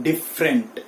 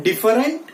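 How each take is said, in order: First: 'different' as two syllables, dif-rent; right pronunciation. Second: 'different' as three syllables, di-fa-rent; wrong pronunciation. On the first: Teacher correcting students, right pronunciation with silent e. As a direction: keep the first e of 'different' silent. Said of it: "it is different". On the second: Teacher rejecting the common mistake, wrong pronunciation. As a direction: sound the middle e in 'different'. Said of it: "It is not different". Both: Shown as a demonstration.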